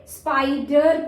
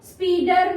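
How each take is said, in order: First: स्पाइडर with a long eye in the first syllable; long I sound. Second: स्पीडर with ee in place of eye; wrong short-sound reading. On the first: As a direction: stress the open long I in स्पाइडर. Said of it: "long sound". (स्पाइडर में लंबा 'आई') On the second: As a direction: misread spider as speeder, स्पीडर. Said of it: "स्पीडर नहीं पढ़ेंगे". (स्पीडर, 'आई' की जगह 'ई') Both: Shown as a demonstration.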